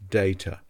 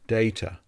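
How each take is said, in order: No difference in how they are said.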